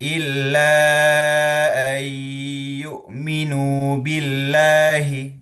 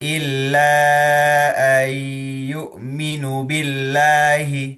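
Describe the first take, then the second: First: The vowel after the n is held long. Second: The vowel after the n is cut short. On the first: The speaker calls it right. "dibaca panjang ya" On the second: The speaker calls it wrong. "ketika nunya dibaca pendek"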